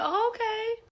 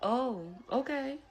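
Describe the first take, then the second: First: It sounds pleased and approving. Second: It sounds unimpressed and disapproving.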